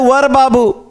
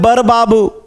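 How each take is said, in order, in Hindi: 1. पहला शब्द v की आवाज़ से शुरू होता है। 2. पहला शब्द b की आवाज़ से शुरू होता है। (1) "बोलते हैं वर बाबू" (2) "बोल देते हैं बर बाबू"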